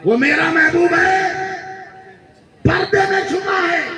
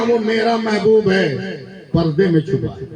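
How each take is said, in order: First: High, slow ecstatic shout; shouted climax. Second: Said in the usual way. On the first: Real, not acted. Preacher repeating the line to the crowd, ecstatic shout. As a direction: cry out वो मेरा महबूब है high and slow. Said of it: "repeated louder". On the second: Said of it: "repeated shouted after".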